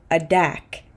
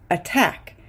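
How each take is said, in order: First: "adak", attack with a D in place of T. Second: "attack" with a full T on the stressed syllable; true T. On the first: Teacher shows the wrong form "adak" with a D. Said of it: "we don't say". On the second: Teacher corrects to "attack" with a true T. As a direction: keep a crisp T in "attack". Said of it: "the T is inside the stressed syllable". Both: Shown as a demonstration.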